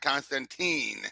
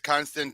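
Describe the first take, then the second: First: The final syllable does not rhyme with 'fine'. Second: The final syllable rhymes with 'fine'. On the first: The speaker calls it wrong. "not Constantine" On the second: The speaker calls it right. "he sounds like wine"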